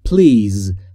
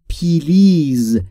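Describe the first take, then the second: First: The p and l are joined with no vowel. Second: An extra vowel is inserted between p and l. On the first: The speaker calls it right. "تلفظ درست به این صورته. بین پی و ال صدایی وجود نداره" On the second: The speaker calls it wrong. "خیلی از زبان آموزا میگن پیلیز. این تلفظ اشتباهه"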